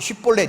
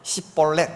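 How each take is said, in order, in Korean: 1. 이 단어는 sh 소리로 시작해요. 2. 이 단어는 s 소리로 시작해요. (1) "쉿볼렛 이렇게 발음 못하고" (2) "이렇게 말하면 그냥 죽이는 거야"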